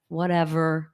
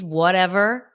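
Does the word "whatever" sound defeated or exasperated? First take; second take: defeated; exasperated. First: It sounds deflated and low, like a defeated slump. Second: It sounds exasperated and dismissive, like an eye roll. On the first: The speaker has given up and feels hopeless. "the hunched over like whatever, like that's depressing too" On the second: The speaker is brushing the matter off with contempt. "the eye roll teenage whatever"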